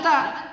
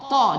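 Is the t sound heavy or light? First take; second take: light; heavy. First: The t sound is light, with the tongue low. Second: The t sound is heavy, with the tongue raised. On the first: The speaker calls it wrong. "jangan ta" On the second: The speaker calls it right. "Ta juga adalah huruf isti'la"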